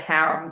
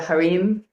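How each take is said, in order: First: The word is said in an American way. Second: The word is said in a non-American way. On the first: This is how the person she knew said it. "here in America, he called it harem. That's why I pronounce it that way" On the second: This is how other countries say it. "in other countries, they call it the harem"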